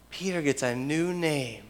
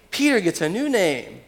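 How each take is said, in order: First: Softly, letting it sink in; hushed repetition. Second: Raised pitch on a lively proclamation; emphatic announcement. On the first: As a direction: say it quietly and reflectively. Repeated softly for reflection. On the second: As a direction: announce the new name with emphasis. First, emphatic take of repeated line. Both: Real, not acted.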